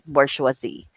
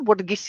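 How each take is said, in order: First: The word is said in full, the French way. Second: The word is said short, the local way. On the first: The speaker calls it right. "But the pronunciation of this is bourgeoisie. That is right" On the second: The speaker calls it wrong. "Ganun natin siya tinatawag even before"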